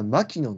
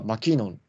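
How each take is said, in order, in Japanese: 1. この名前は日本語風に言われています。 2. この名前は英語風に言われています。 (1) "日本人の感覚的にはマキノンって言っちゃうんですよ" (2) "本当はマキノンだったんで"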